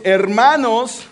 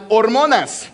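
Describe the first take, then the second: First: "hermanos" with e and a vowels, silent h; shown Spanish word. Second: "hormonas" with o vowels, silent h, louder; contrasting Spanish word. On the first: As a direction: present "hermanos" clearly as a word to learn. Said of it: "We have another word". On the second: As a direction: present "hormonas" clearly as the look-alike word. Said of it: "looks almost like the same". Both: Shown as a demonstration.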